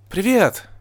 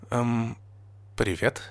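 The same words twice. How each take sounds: First: High, bright-spirited excited greeting; exclaiming. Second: Soft, hesitant greeting; unsure. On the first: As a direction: greet eagerly with a high cry. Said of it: "воскликнула Эпплблум". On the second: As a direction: offer a timid, halting hello. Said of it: "неуверенно сказала Нина". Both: A narrator's reading.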